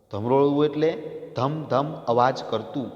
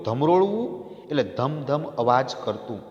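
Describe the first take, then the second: No difference in how they are said.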